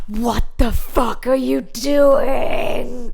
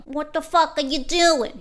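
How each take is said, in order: First: Slow, loud American shout; angry American father shouting at mum; American dad yell. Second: Brooklyn dad shouting; Brooklyn accent. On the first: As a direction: bellow it like a furious American dad. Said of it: "I'm sorry, he's American". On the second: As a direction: give it a Brooklyn bark. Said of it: "he's from Brooklyn". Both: Retold or imitated.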